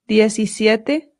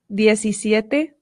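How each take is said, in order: No difference in how they are said.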